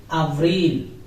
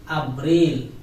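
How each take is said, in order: Both takes have the same delivery.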